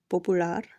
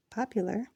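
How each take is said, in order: First: Popular said po-pu-LAR with Spanish vowels; popular, Spanish style, stress on LAR. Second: Said in the usual way. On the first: Shown as a demonstration. Teacher giving the Spanish word: popular, stress on LAR.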